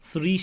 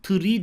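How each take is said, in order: First: The word begins with a lisped th sound. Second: The word begins with a plain t sound. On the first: The speaker calls it right. "Bunu peltek okuyorduk. Dikkat. 3 şeklinde" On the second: The speaker calls it wrong. "3 demiyorduk. 3 dediğimizde ağaç anlamına geliyordu"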